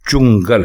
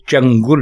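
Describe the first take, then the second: First: The 'u' vowel is in the first syllable. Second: The 'u' vowel is in the second syllable. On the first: The speaker calls it right. "बल्कि चुंगल है" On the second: The speaker calls it wrong. "ये चंगुल नहीं है"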